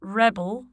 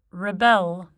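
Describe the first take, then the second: First: "rebel" as a noun, REB-ul; stress on first syllable. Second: "rebel" as a verb, ri-BEL; weak first vowel in "rebel", weight on BEL; stress on second syllable. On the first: Teacher shows the noun, "rebel" stressed on REB. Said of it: "stressed on the prefix". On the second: Teacher shows the verb, "rebel" stressed on BEL. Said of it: "stressed on the stem". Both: Shown as a demonstration.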